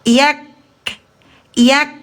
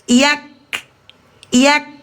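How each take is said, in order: The two takes are said the same way.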